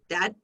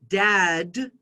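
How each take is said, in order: First: The final d is weak or barely heard. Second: The final d is clearly pronounced. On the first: "a Thai speaker would pronounce it dad" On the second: "in English, we would pronounce this word dad"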